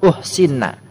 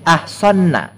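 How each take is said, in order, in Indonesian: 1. Vokal pertama adalah 'u', dan yang kedua 'i'. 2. Vokal pertama dan kedua sama-sama 'a'. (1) "mendomahkan Hamzah dan mengkasrohkan Sad" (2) "membacanya dengan fathah. Nah, Hamzah dan Sad"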